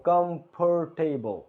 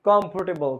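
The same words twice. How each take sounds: First: কমফোর্টেবল slowly, syllable by syllable; slow syllable demo. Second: Said in the usual way. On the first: Shown as a demonstration. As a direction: stretch out কমফোর্টেবল. (কমফোর্টেবল ধীরে উচ্চারণ) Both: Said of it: "syllable demo".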